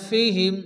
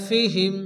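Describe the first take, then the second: Both takes have the same delivery.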